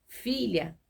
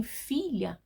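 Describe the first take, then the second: First: Said in the usual way. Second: Gentle affectionate address; with tenderness. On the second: Shown as a demonstration. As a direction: say it like a father comforting his child. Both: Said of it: "com carinho".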